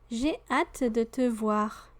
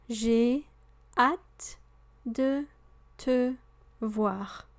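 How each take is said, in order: First: It is said at natural, connected speed. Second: It is said slowly and carefully.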